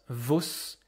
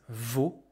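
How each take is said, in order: First: A final S sound is pronounced. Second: No final S sound is pronounced. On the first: The speaker calls it wrong. "this is not vos" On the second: The speaker calls it right. "you will not hear this S"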